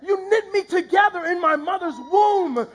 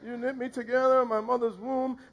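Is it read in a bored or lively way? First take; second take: lively; bored. First: It is read in a lively, expressive way. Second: It is read in a flat, bored way.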